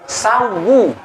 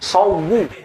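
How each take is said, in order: First: The first vowel sounds like 'a'. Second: The first vowel sounds like 'o'. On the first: The speaker calls it right. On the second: The speaker calls it wrong.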